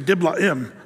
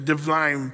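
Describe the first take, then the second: First: It is said the English way, Diblaim. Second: It is said the modern Hebrew way, Divlaim.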